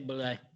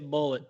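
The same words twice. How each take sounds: First: It ends in a lay sound, like boo-lay. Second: It sounds like the English word bullet. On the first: This is the way locals do not say it. The speaker calls it wrong. "They don't say Bullet" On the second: This is how Kentucky locals say it. The speaker calls it right. "They say Bullet"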